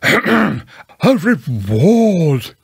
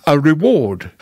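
First: Raised, drawn-out emphatic owl voice; very loud. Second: Measured owl, not raised; deliberate restatement. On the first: Owl corrects Pooh after being misheard, very loudly. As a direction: belt out REWARD, stretching it. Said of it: "said Owl very loudly". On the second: Owl repeats his advice to Pooh, deliberately. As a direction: restate it carefully at an ordinary pitch. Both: Acted.

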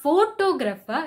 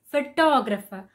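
First: Photographer stressed on PHO; stress on first syllable. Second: Photographer stressed on TOG; stress on second syllable. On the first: Teacher showing the wrong photographer stress. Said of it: "stressing on the first O". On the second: Teacher modelling photographer stress. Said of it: "stress on the second O". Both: Shown as a demonstration.

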